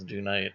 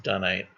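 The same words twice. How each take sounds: First: It is said with a British pronunciation. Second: It is said with an American pronunciation.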